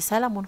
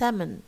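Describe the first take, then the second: First: An L sound is pronounced before the M. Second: No L sound is pronounced before the M. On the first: The speaker calls it wrong. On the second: The speaker calls it right.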